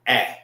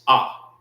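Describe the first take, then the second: First: The letter has the vowel of 'apple'. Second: The letter has an open 'ah' vowel. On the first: This is how others pronounce it. "When they when they say it like that, they're pronouncing it that way" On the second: This is how it is pronounced in Hebrew. "When we pronounce our Hebrew, it's Ah"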